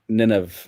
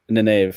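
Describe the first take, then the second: First: The name is said like Nineveh. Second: The same.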